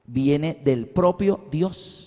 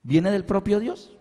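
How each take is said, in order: First: Slow, deliberate, word by word; slow statement. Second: "Viene del propio Dios" rising at the end as a question; questioning tune. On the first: Preacher making his point on baptism to the congregation, slow and deliberate. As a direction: state it slowly with spaces between words. Solemn point, then asked back. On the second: Preacher checking with the congregation, "Viene del propio Dios" as a rising question. Same words asked back to congregation. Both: Shown as a demonstration.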